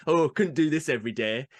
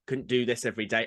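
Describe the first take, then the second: First: Mock northerner's grumble; northern English accent. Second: Said in the usual way. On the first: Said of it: "it does tend to be Northerners". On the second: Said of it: "they go".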